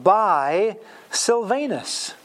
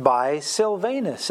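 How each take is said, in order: First: Slow reading. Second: Said in the usual way. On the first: Shown as a demonstration. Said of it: "Verse twelve". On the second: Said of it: "So, at this point".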